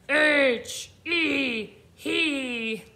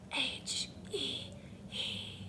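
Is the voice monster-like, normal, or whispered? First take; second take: monster-like; whispered. First: It is spelled in a scary monster voice. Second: It is spelled in a whisper. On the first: "Let's spell it like a scary monster" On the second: "Let's whisper spell it"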